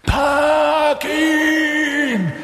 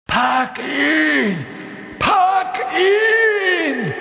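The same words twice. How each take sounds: First: High, loud drawn-out scream; screamed order. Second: High, loud shriek, rising on the repeat; shrieking order. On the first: Voldemort screams at Quirrell to seize Harry. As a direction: scream the command. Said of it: "doch Voldemort schrie". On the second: Voldemort shrieks at Quirrell again to seize Harry. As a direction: shriek it, louder the second time. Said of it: "kreischte Voldemort erneut". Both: A narrator's reading.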